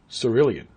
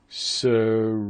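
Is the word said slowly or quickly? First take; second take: quickly; slowly. First: The word is said quickly to fit the beat. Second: The word is said slowly and drawn out.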